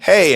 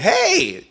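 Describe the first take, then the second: First: Said in the usual way. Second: "hey" flung up very high; high, bright greeting "hey". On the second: Shown as a demonstration. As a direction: sing "hey" way up like a happy hello. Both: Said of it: "the difference between you saying".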